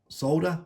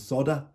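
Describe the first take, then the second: First: It is said in a British way, L sounded. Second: It is said in an American way, without L.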